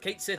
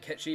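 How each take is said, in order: First: The name sounds like 'Kate Sith', as spelled. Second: The name sounds like 'Ketchi', Gaelic style. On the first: This is the reading most people use. "is usually the one that everybody goes to" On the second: This follows the Gaelic origin of the name. "I always name it Ketchi"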